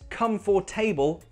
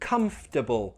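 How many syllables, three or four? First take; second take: four; three. First: The word is said with four separate syllables. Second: The word is said with three syllables pushed together. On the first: The speaker calls it wrong. "not comfortable, no" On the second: The speaker calls it right. "it's comfortable... Push it together"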